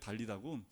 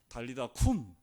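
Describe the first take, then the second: First: The last syllable starts with a soft g sound. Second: The last syllable starts with a strong k sound.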